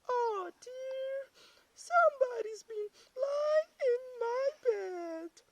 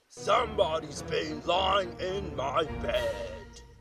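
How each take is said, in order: First: It is said in a middle-sized voice. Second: It is said in a great big voice.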